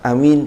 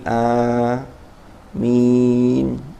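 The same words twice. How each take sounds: First: The first vowel is said short. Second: The first vowel is said long. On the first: The speaker calls it wrong. "bukan amin" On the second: The speaker calls it right. "jadi a-nya dibaca mad"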